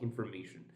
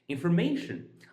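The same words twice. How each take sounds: First: The third syllable is not louder than others. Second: The third syllable is louder than the others. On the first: The speaker calls it wrong. "Not information" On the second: The speaker calls it right. "mation is may is louder than the other"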